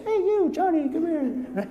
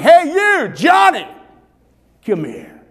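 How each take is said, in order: First: It is said weakly and timidly. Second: It is yelled out loudly.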